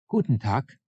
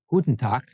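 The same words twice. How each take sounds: First: It is said more slowly than normal. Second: It is said at normal conversational speed.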